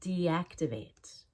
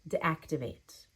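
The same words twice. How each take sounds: First: The first vowel is a clear long E. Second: The first vowel is reduced and unclear. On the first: The speaker calls it right. "It needs to be a long E" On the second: The speaker calls it wrong. "My D wasn't clear enough there"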